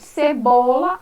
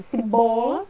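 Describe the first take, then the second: First: Cebola said as sibola, first vowel as i; wrong pronunciation. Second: Cebola with a clear e, se-bola; correct pronunciation. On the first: Teacher demonstrating the child's error, cebola said as sibola. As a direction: mispronounce cebola with an i sound, cibola. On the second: Teacher modelling the correct word, cebola with e. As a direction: say cebola properly, open e in the first syllable. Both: Shown as a demonstration. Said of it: "fale corretamente cebola ao invés de".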